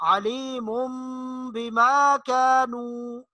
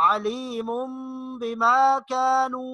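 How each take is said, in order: The two takes are said the same way.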